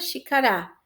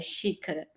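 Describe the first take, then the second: First: The stress is on the last syllable. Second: The stress is on the first syllable. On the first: The speaker calls it wrong. "se fosse orar" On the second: The speaker calls it right. "O xi é mais forte"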